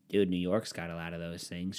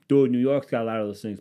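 First: Low, muted mock objection. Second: Loud, insistent mock objection; louder mocked objection. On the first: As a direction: mimic a dull objector, pitched down. Mocking a New York defender, first take. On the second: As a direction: mimic the objector, pushing it louder. Mocking objector again, louder second take.

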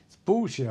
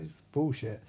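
First: Higher punch on "bullshit"; mock indignant stress on "bullshit"; emphatic dismissal. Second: Said in the usual way. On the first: Fishburne dismissing the grisly art, higher and emphatic.

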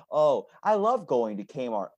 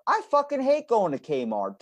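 First: Slow, put-on gushing; mock delight, insincere and stretched; fake enthusiasm. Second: High, vehement outburst; exasperated, high-pitched declaration of hatred; emphatic loathing. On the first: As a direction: pretend to love it, drawing it out. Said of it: "But I don't fake". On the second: Acted. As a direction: blurt out the honest truth, pitched right up. Blunt truth against the faked line.

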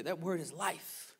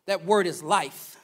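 First: Much softer, slow and rising; slow quiet echo. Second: Slow, weighty preaching line; slow emphatic. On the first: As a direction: let it fall to a hush. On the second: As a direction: press each word slowly. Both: Acted.

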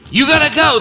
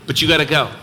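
First: "You gotta go" hammered out at full voice; loud preaching call. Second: Said in the usual way. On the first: Real, not acted. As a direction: shout "You gotta go" from the pulpit.

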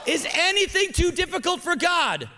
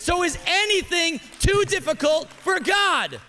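First: Shouted high and loud like a call to answer; preached shout. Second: High, loud rally cry of faith; preached shout. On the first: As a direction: belt it with full conviction. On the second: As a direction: lift it up so the whole room shouts back. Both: Shown as a demonstration. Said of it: "Say it again".

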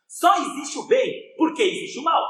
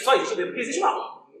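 First: High and slow, leaning on "Só"; the key maxim, spoken slowly and weightily; slow emphatic statement. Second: Said in the usual way. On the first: Shown as a demonstration. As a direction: lay out the principle word by word. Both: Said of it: "Já pararam pra pensar isso?".

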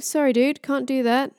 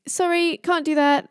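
First: Casual refusal with the put-on accent slipping; lightly acted, higher-pitched offhand apology; Loki. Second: Much higher-pitched mock apology; high, offhand character voice; Loki. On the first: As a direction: play a trickster, losing the character accent. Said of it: "Oh, my accent's gone". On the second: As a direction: play an unbothered trickster refusing, pitched high. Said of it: "Loki's like".

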